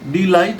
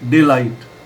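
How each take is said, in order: First: The first syllable has a long 'ee' vowel. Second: The first syllable has a short 'eh' vowel. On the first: The speaker calls it wrong. "डी लाइट नहीं बोलेंगे" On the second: The speaker calls it right.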